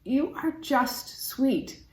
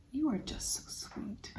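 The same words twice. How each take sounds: First: Slow, higher, tender voice; fond cooing. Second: Hushed, adoring whisper. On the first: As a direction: coo it slowly to a little keepsake. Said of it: "I just wanna say to it". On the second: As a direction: whisper it sweetly, as to a tiny treasure. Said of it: "whisper to me". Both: Acted.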